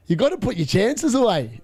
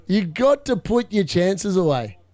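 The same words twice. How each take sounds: First: Said in the usual way. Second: Slower, leaning on got; slow emphatic repeat. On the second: Real, not acted. Streamer repeating his verdict on Liverpool, slow and emphatic. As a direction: drive the lesson home, slowly.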